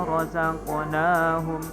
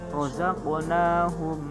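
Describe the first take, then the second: No difference in how they are said.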